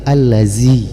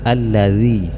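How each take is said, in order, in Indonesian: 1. Konsonan tengahnya adalah bunyi z yang didesiskan. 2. Konsonan tengahnya adalah bunyi th yang lembut. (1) "Jangan didesiskan ya, jangan dibaca allazi" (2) "Yang benar allazi"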